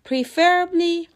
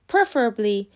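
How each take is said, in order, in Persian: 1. استرس روی هجای دوم است. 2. استرس روی هجای اول است. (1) "preferably غلطه ... استرس روی سیلاب دومه" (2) "تلفظ درست preferably ... استرس روی سیلاب اوله"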